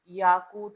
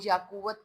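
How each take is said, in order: First: The middle is one long 'koo', two syllables. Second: The middle is split into 'kuwat', three syllables. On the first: The speaker calls it right. "याकूत लफ्ज होता है" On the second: The speaker calls it wrong. "वो याकुवत कोई लफ्ज नहीं होता"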